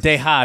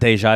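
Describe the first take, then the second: First: The j sound in the middle is dropped. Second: The j sound in the middle is fully pronounced. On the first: The speaker calls it right. "Or deja, They don't say J's" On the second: The speaker calls it wrong. "not deja"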